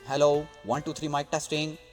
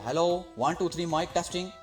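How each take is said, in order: First: The voice has a light, moderate reverb. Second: The voice has a heavy, strong echoing reverb. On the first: The speaker calls it right. "अब इसको ज़रा normal पे लेके आते हैं।" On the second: The speaker calls it wrong. "ये गूंज है रिवर्ब की, जो कि बहुत ज़्यादा हो जाती है।"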